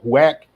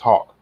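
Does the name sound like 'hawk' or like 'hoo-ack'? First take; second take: hoo-ack; hawk. First: The name is read out with a 'hoo-ack' sound. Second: The name sounds like the word 'hawk'. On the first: The speaker calls it wrong. "I can't say it right" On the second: The speaker calls it right. "it looks like Huack, but it's, it's Hawk"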